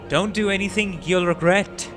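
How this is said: It is said with strong emotion. The speaker calls it right.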